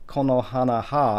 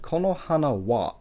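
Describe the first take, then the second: First: The word after hana begins with an h sound. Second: The word after hana begins with a w sound. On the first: The speaker calls it wrong. "I didn't say konohana ha" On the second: The speaker calls it right. "I said konohana wa"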